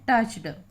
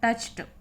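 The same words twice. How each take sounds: First: The word ends with a d sound. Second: The word ends with a t sound. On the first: The speaker calls it wrong. "हम बोलते हैं" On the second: The speaker calls it right. "सही जो उच्चारण है"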